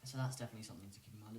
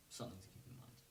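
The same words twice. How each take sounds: First: Said in the usual way. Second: Soft unvoiced whisper; whispered aside. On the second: Real, not acted. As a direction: drop to a whisper for the reminder. Repeats the advice.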